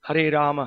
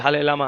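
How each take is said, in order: First: The r sounds are pronounced as clear r sounds. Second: The r sounds are replaced with l sounds. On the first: The speaker calls it right. "clearly we have to pronounce" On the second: The speaker calls it wrong. "somebody from Chinese background may not be able to uh, pronounce the names clearly"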